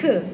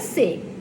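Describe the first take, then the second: First: The letter is said as a short k sound. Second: The letter is said by its name, 'cê'. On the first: "O som dele é C" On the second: "Esse é a letra C"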